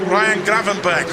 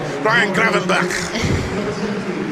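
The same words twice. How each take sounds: First: The name is said in a Dutch accent. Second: The name is said in a Scouse accent. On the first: "he says it himself" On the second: "if you want to be Scouse"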